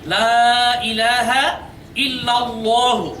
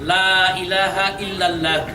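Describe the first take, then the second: First: The last word ends with a final 'u' vowel. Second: The last word ends without a final 'u' vowel. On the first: The speaker calls it right. "এটা উচ্চারণ হবে" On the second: The speaker calls it wrong. "তারা বলে"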